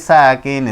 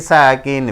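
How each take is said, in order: Both takes have the same delivery.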